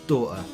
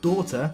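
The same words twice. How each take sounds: First: Said in a Northern English accent, T not crisp. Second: Said in a posh Southern accent, T crisply enunciated. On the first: "if I was saying this word, I would pronounce it" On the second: "might enunciate the T and say"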